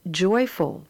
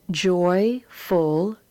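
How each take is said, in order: First: Said in the usual way. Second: Joyful spoken as joy then ful with a lift; Joyful sounded out for the class; split in syllables. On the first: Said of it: "and then as the whole word". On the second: Shown as a demonstration. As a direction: sound out Joyful in two parts. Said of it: "read the words as two syllables".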